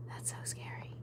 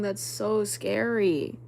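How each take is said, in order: First: Hushed, voiceless repeat to herself; whisper. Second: Said in the usual way. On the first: Real, not acted. Streamer to herself about the story, scared whisper. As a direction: whisper it, spooked.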